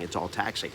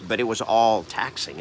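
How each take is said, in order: First: Softer repeat, weight on "taxing"; quiet echo. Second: "all" leaned on, falling close; stress on all. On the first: Echoing himself to viewers, softer and tired. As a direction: let "It's all taxing" fall away, softer. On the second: Telling viewers how draining it was, "all" stressed. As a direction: hit "all" hard in "But it was all taxing". Repeats taxing, stress then soft. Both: Real, not acted.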